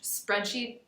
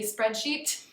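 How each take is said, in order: First: The final T is soft and barely heard. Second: The final T is released with a puff of air. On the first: "Sometimes you won't hear it as much" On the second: "Sometimes English speakers will aspirate the T"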